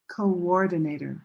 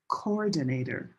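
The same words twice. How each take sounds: First: A w sound links the two syllables. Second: The two o sounds run together without a w. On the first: The speaker calls it right. "there's actually an invisible sound" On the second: The speaker calls it wrong. "we don't say coordinator"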